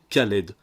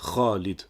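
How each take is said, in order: First: It begins with a plain hard K sound. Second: It begins with a throaty, scraped kh sound. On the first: The speaker calls it wrong. "ce qui pousse les non-arabophones à prononcer Khaled" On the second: The speaker calls it right. "pour dire Khalid"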